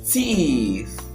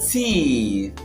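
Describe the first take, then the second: No difference in how they are said.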